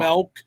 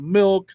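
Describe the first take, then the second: First: "milk" said as melk; accented "milk". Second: Said in the usual way. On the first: Retold or imitated. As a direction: imitate her accent, giving "milk" the vowel of bell. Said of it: "who has this accent". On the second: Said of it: "instead of".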